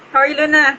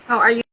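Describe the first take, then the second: First: Higher and louder call of the question; louder, higher repeat of the greeting. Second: Said in the usual way. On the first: Real, not acted. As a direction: raise your voice so Luna hears.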